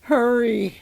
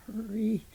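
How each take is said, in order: First: Louder, higher urging; insistent one-word shout. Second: Soft, drawn-out urging; a feeble shout, held back in volume; weak shouting. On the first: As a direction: raise the voice to press them on. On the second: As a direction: urge them on faintly. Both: A narrator's reading. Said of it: "the head just kept shouting".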